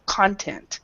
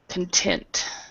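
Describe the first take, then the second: First: The stress is on the first syllable. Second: The stress is on the second syllable. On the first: It is a noun naming what something contains. "the first one, content, the stress is on the first syllable" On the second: It is an adjective meaning satisfied. "The stress is on this part right here"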